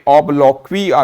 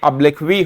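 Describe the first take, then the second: First: The second syllable has an 'o' vowel. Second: The second syllable has an 'i' vowel. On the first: The speaker calls it wrong. "ये बिल्कुल गलत है" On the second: The speaker calls it right. "ये अब्लिक्वी होता है"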